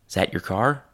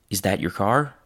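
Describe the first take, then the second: The two takes are said the same way.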